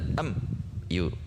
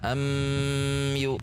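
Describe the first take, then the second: First: A short break separates am from yu. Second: The m is held long before yu. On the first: "tidak terjeda, tidak am yu" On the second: "Atau ditahan am yu"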